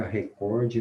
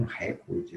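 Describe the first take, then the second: First: "recorde" stressed as re-COR-de; stress on middle syllable. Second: "recorde" stressed as RE-cor-de; wrong stress on first syllable. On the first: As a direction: hit the second syllable of "recorde". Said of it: "Nas paroxítonas". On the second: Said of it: "e não recorde". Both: Shown as a demonstration.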